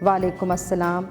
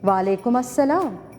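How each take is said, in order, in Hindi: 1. कम लहजे के साथ पिच सपाट रहती है। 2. जीवंत लहजे के साथ पिच तेज़ी से ऊपर उठती है। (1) "तो इसका वो इफ़ेक्ट नहीं पड़ेगा" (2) "आपकी आवाज़ का जो चढ़ाव है वो ज़्यादा हो"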